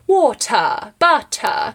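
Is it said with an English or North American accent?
English. It is said with an English accent.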